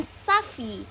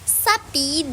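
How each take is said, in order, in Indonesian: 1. Konsonan tengahnya adalah bunyi f. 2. Konsonan tengahnya adalah bunyi p. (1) "digantikan bunyi F sehingga terdengar seperti safi" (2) "bunyi P dalam kata sapi"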